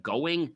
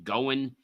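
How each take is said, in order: First: "going" with a complete -ing; polished ng ending on "going"; full word ending. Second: "going" clipped to goin'; lazy n ending on "going"; dropped word ending. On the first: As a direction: sound the whole ending of "going". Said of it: "pronounce full word endings". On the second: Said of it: "it can make you sound rushed". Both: Shown as a demonstration.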